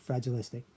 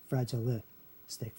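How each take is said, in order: First: Said in the usual way. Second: Slow "Fragilistic", broken before the final stic; sounded out slowly. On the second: Shown as a demonstration. Teacher showing where li falls, slow and split. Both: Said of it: "be pronounced li there".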